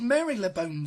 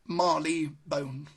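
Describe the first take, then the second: First: The name is not said as 'Marley-bone'. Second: The name is said as 'Marley-bone'. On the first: The speaker calls it wrong. "it's not actually pronounced like that" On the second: The speaker calls it right. "the way it's pronounced is like this"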